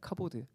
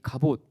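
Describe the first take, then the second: First: It is said as 'kabod', ending in d. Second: It is said as 'gabot', ending in t. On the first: The speaker calls it right. "더 정확한 발음은 카보드입니다" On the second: The speaker calls it wrong. "가봇이라고 기록했지만"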